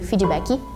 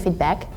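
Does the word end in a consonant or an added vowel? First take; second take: vowel; consonant. First: The word ends with an added vowel sound. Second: The word ends on a bare consonant. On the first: "we say feedbacky" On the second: "we don't say feedback"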